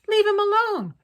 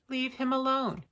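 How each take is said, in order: First: It is said forcefully, with strong feeling. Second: It is said flatly, without much feeling. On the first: The matter is pressing and emotional. "That's much more urgent" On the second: Nothing about it seems pressing. "Sounds kind of lazy"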